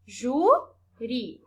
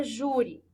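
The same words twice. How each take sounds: First: "Júri" in two separate beats, jú, ri; split into syllables. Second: Said in the usual way. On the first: Shown as a demonstration. Teacher counting syllables for pupils, "Júri" pulled apart into jú, ri. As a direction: separate "Júri" into jú and ri with a gap between. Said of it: "O ri é a última". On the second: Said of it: "Então, por exemplo".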